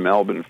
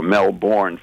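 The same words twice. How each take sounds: First: "Melbourne" said the Australian way, as MEL-bun; Australian pronunciation. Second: "Melbourne" slowly as Mel-BORN, with a full r; American pronunciation. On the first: Real, not acted. Host slipping on a Florida town's name, Australian-style "Melbourne" as MEL-bun. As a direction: swallow the second vowel of "Melbourne": MEL-bən. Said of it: "Australian accent there".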